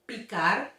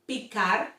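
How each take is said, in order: The two takes are said the same way.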